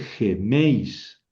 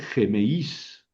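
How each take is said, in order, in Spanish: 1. El acento cae en la e del diptongo. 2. El acento cae en la i del diptongo. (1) "se pronuncia sobre la vocal fuerte" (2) "aquí no voy a leer gemeís, no"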